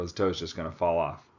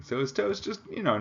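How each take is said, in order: First: Said in the usual way. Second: Toe's swoops up very high in disbelief; incredulous rise. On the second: Shown as a demonstration. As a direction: ask "So his toe's just," in shocked disbelief. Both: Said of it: "That is disgusting".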